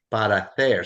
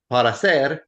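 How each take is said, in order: First: "para hacer" with TH for the c; Castilian pronunciation. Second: Said in the usual way. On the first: Shown as a demonstration. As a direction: lisp the c in "hacer", Castilian style. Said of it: "pronounce it like a T H". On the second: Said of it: "Instead of para ser".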